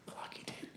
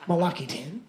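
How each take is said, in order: First: My lucky ten whispered, no voice. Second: Said in the usual way. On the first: Shown as a demonstration. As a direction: breathe my lucky ten like a secret. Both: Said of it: "repeated as whisper".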